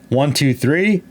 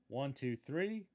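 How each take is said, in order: First: It is recorded at a high input level. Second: It is recorded at a low input level. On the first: "High gain" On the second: "Low gain"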